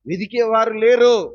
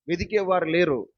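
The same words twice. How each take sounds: First: Preaching shout. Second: Said in the usual way. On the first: Real, not acted. Repeated phrase, loud take.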